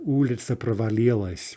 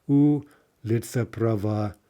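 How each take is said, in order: First: Said in the usual way. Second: "Улица" slowly, first syllable У held long and stressed, the rest evenly unstressed; scanning the stresses. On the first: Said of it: "we actually see that right off". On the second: Shown as a demonstration. Lecturer scanning Mayakovsky's line for students, slow stress on the У of "Улица". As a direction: draw out the У of "Улица", then count through the unstressed syllables. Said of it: "Four unstressed syllables right in a row".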